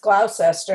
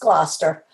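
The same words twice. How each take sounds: First: The name is said in full, every part sounded. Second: The name is said in a shortened form. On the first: This is how the name looks when read. The speaker calls it wrong. "it looks like it's Gloucester" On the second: This is how locals actually say the name. The speaker calls it right. "and it's not, it's Gloucester"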